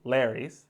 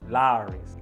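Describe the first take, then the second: First: The name rhymes with 'Harry's'. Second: The name sounds like 'Lowry's'. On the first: The speaker calls it wrong. "It's not Larry's" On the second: The speaker calls it right. "it's Lawry's, like Mike Lowry"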